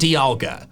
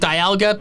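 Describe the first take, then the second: First: The name does not begin with 'die'. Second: The name begins with a 'die' sound. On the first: The speaker calls it wrong. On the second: The speaker calls it right.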